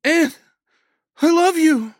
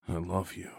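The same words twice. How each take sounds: First: High, full-force yell. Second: Quiet reply. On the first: Woman to wounded man below, yelling. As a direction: yell love down a stairwell. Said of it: "she yelled down the stairwell". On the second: Wounded man answering her from the snow, quietly. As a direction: answer softly, with little strength. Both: A narrator's reading.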